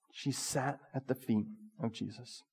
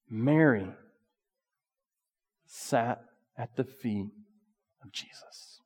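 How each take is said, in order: First: Much softer, almost breathed; near whisper. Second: Slow, soft reverent telling; hushed reverence. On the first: Preacher repeats Mary's devotion to the congregation, near whisper. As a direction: breathe the words out to the room. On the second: Preacher lingers on Mary at Jesus' feet, slow hush. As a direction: let it fall to a hush. Preacher drops voice for key point. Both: Acted.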